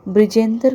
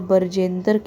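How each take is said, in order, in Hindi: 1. शुरुआती व्यंजन br एक साथ बोले जाते हैं। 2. b और r के बीच एक स्वर डाला जाता है।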